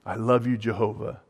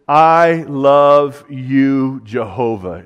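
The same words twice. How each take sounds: First: "I love you, Jehovah" softer, gently, "Jehovah" ending on a slight rise; soft tender repeat. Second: "I love you, Jehovah" stretched very slowly, the "I" drawn out and loud; slow emphatic declaration. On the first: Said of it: "with the understanding of how Jehovah loved him". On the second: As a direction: lean hard on "I", let "Jehovah" fall. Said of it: "is what he's saying". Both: Shown as a demonstration.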